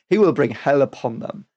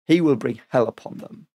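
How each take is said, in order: Both takes have the same delivery.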